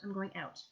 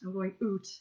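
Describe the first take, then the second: First: The word out is said with an ow vowel. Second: The word out is said with an oo vowel. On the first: This is how the speaker really says it. The speaker calls it right. "Out? I'm going out" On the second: This is a stereotyped Canadian way of saying it. The speaker calls it wrong. "I don't say like oot"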